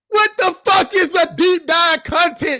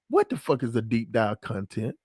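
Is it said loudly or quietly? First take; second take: loudly; quietly. First: It is said loudly. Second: It is said quietly.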